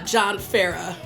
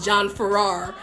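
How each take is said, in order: First: The surname is said in the Australian way. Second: The surname is said in a non-Australian way. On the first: This is how the name is actually said. The speaker calls it right. "I guess is the uh, uh, Australian pronunciation" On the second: This is how the speaker used to think it was said. The speaker calls it wrong. "For years, I thought his name was"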